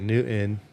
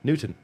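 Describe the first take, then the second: First: The T is left out entirely. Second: The T is pronounced only lightly. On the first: The speaker calls it wrong. "or they'll say Newton" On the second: The speaker calls it right. "You got to put the little bit of a T in there"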